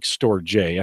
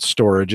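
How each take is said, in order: First: Storj read as "store-jay"; spelling pronunciation. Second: Storage said like the ordinary word; official pronunciation. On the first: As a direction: say Storj in two parts, "store" plus the letter J. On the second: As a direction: say storage as one word ending in "-ij". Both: Shown as a demonstration. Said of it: "They pronounce it storage".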